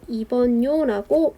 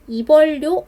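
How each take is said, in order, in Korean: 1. 이 자음들은 ㄴㄴ로 발음됩니다. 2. 이 자음들은 ㄹㄹ로 발음됩니다. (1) "리을의 비음화 시켜주시면 되겠습니다" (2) "이벌요 아니고"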